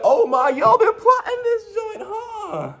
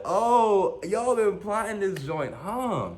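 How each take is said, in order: First: Very high, loud, drawn-out cry; mock outraged wail. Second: High, slow, drawn-out realisation; mock astonished whine. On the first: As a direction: wail it out slowly in comic shock. Acts out comic outraged realisation. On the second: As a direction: draw it out high without shouting. Repeats comic realisation more softly.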